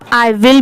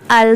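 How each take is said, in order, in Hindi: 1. यह दो पूरे शब्दों के रूप में बोला जाता है। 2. यह एक संकुचित शब्दांश के रूप में बोला जाता है। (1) "इसे आप आई विल भी प्रोनाउंस कर सकते हैं" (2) "पढ़ते टाइम I'll study later ऐसे भी पढ़ सकते हैं"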